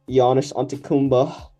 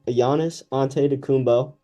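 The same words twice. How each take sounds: First: The name is pronounced sloppily and garbled. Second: The name is pronounced carefully and clearly. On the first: The speaker calls it wrong. "the worst pronunciation I've ever heard" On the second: The speaker calls it right. "I'll say it for real"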